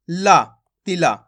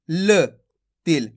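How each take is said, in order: First: तिला with ला sounded fully as "laa"; full final vowel. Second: तिल ending on a clipped ल, no long "aa"; half final consonant. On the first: Teacher shows a common learner mistake, तिला with full ला. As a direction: add a full "aa" after the l: तिला. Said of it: "ला का उच्चारण पूरा कर देते हैं". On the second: Teacher models last letter for students, तिल with half ल. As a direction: stop on the l of तिल without a full vowel. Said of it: "यानी कि आधा करेंगे". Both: Shown as a demonstration.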